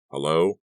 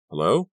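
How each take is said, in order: First: A touch of irritation, louder; curt, put-out greeting; annoyed hello. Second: Tired hello, lifting at the end; weary hello. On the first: Father answering a weird caller, annoyed. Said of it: "he said, sounding annoyed". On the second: Exhausted Kerry picking up the phone upstairs, weary. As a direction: sound worn out answering the phone. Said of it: "He couldn't keep the weariness from his voice". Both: A narrator's reading.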